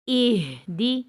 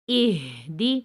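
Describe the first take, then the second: No difference in how they are said.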